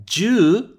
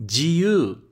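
First: "Ju" said short and clipped, single vowel; short ju for ten. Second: "jiu" with a gliding i before the u; jiu for free. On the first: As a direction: say "Ju" loud and short, one syllable. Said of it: "ju é o nosso, o número dez". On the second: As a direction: give "jiu" its full two-sound glide. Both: Shown as a demonstration.

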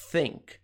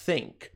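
Both takes have the same delivery.

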